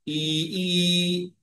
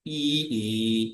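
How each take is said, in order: First: The second part of the vowel goes higher. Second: The second part of the vowel falls lower. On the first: "उपरि गतम्" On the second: "स्वरितस्य ईकारस्य उच्चारणम् ई ई इति आवश्यकं"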